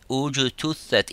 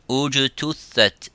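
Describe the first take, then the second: Both takes have the same delivery.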